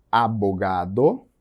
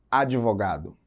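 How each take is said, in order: First: "Abogado" in Spanish, drawn out with a rising end; slow, lower "Abogado" with a clear Spanish b; Spanish word demo. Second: Said in the usual way. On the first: Shown as a demonstration. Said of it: "qual palavra tá em espanhol". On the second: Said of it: "qual palavra tá em português".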